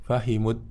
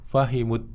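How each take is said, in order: Both takes have the same delivery.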